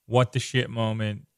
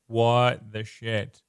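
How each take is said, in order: First: Said in the usual way. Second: Slow, drawn-out shocked "What the shit?"; mock shocked reader. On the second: Reader turning the page and seeing the faceless woman, shocked. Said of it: "And you're like".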